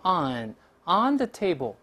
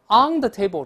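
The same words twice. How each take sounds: First: The word on ends in a front n sound. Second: The word on ends in a back ng sound. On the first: The speaker calls it right. "得按英语读成on the table 这么来说" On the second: The speaker calls it wrong. "好多中国同学容易把这词读成on the table"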